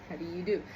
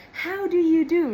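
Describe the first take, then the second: First: Said in the usual way. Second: "How do you do?" said much higher and louder, falling on "do"; old Hollywood greeting. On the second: Retold or imitated. Recalling her formal greeting to Nick, high and loud old Hollywood style. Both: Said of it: "like, old Hollywood movies".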